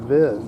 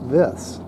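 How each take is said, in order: First: The word ends with a buzzing z sound. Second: The word ends with a hissing s sound. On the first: "these new young kids like to call it a Viz" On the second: "so I think you say Vis"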